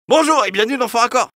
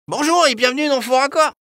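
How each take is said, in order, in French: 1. On dirait un homme de la trentaine. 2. On dirait un garçon de dix ans, un peu plus rond. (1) "Un homme de la trentaine" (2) "Un petit garçon de dix ans, un peu plus rond"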